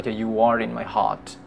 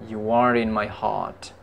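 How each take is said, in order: The two takes are said the same way.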